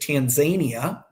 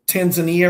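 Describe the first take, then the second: First: The name is said the way locals say it. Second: The name is said in the speaker's usual way.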